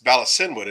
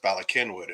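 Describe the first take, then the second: First: The C is said as an s sound. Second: The C is said as a k sound. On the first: This is how the spelling suggests it sounds. "on paper, it's it's Balasinwood" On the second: This is how locals actually say it. "it's pronounced Balakinwood"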